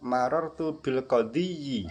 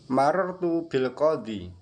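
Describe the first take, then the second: First: The word ends with an added -yi syllable. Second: The word ends simply in a long i. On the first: This is the full form, cumbersome to say. The speaker calls it wrong. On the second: This is the usual, easy reading. The speaker calls it right.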